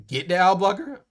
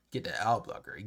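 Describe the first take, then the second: First: "Get the ad blocker?" asked with a clear rise on blocker; puzzled question. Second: "Get the ad blocker." said low and quiet, falling at the end; flat puzzled repeat. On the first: Asking the boss back in disbelief, rising question. Repeating the boss's words, confused. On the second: Repeating the boss's order to himself, low and falling. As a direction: mutter "Get the ad blocker." back to himself, dropping down. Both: Retold or imitated.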